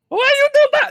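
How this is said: It is said in a Jar Jar impression voice.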